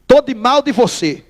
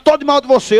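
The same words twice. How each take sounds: First: Demonstração pausada, devagar; declaração de birra. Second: Imitação de bronca, em voz mais firme; brabo. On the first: Shown as a demonstration. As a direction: declare o rompimento bem devagar. Demonstra o ritual da briga. (birra dita pausadamente) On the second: Retold or imitated. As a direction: imite alguém rompendo, levemente zangado. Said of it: "brabo, disse". (um pouco brabo, de birra)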